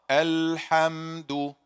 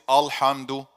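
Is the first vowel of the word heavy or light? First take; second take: light; heavy. First: The first vowel sounds thin and light. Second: The first vowel sounds thick and heavy. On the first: The speaker calls it right. "the tongue is relaxed in the in the bottom of the mouth" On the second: The speaker calls it wrong. "I made ah when it's supposed to be light"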